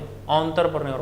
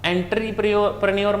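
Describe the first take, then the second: First: The word begins with an 'enter' sound. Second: The word begins with an 'entry' sound. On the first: The speaker calls it right. "बोले" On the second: The speaker calls it wrong. "मत बोलें"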